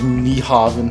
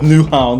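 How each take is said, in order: First: The name sounds like 'nie-haven'. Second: The name sounds like 'new-hound'. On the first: The speaker calls it wrong. "make a fool of myself and pronounce it like Niehaven, how it's actually spelled" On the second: The speaker calls it right. "That's how they're saying it"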